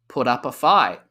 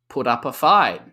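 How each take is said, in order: The two takes are said the same way.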